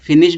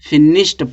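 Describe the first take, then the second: First: The word ends with a d sound. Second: The word ends with a t sound. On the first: The speaker calls it wrong. "फिनिश्ड नहीं पढ़ेंगे" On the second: The speaker calls it right. "फिनिश्ड टा पढ़ा जाएगा"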